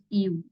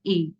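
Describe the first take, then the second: First: The letter is said with an 'oo'-like vowel. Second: The letter is said with an 'ay'-like vowel. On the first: This is how some teachers in India say it. "you can also say it U" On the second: This is how native speakers say it. "native speaker they pronounce it as A"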